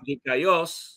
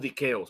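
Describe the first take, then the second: First: The second vowel is said as 'ai'. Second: The second vowel is said as 'e'. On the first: This follows the Erasmian reading of Greek. "así lo van a pronunciar" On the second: This follows the historical modern reading of Greek. "nosotros decimos Diqueos"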